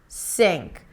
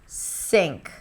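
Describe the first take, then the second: Both takes have the same delivery.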